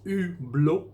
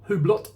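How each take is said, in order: First: The name is said with a French accent. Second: The name is said with an English accent. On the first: The speaker calls it right. "the French pronounce it Hublot" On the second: The speaker calls it wrong. "It's not Hublot or Hublot"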